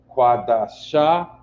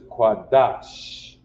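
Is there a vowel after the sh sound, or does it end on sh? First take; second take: vowel after; ends on sh. First: A full vowel follows the sh sound. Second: The word ends on a bare sh sound. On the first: The speaker calls it wrong. "this is not quada sha" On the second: The speaker calls it right. "that sha becomes sh"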